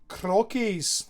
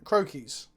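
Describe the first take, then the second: First: It is said in an imitated Scottish accent. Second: It is said in his normal accent.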